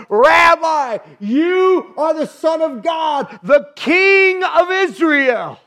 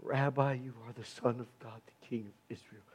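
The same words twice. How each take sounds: First: Loud, slow, high exclamation; shouted praise. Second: Much softer and lower, a hushed confession; quiet awe. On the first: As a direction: cry it out to the whole room. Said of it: "he cried out, he shouted". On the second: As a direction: breathe it like a private confession. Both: Acted.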